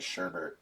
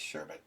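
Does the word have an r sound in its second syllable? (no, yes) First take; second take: yes; no. First: The second syllable has an added r sound. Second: The second syllable has no added r sound. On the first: This is how the family said it. The speaker calls it wrong. "my parents pronounced it sherbet, and so I grew up thinking it was sherbet" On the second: This is the actual pronunciation. The speaker calls it right. "it's actually just sherbet"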